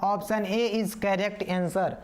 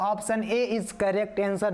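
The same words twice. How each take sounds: First: Very slow, each word spaced out; drawn-out teacher announcement; slow, deliberate answer. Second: Very slow, each word laid down one by one; unhurried teacher verdict; slow, deliberate answer. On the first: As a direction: spell out the right answer slowly for the class. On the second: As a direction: announce the correct option slowly and clearly. Teacher announcing the right answer. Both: Shown as a demonstration.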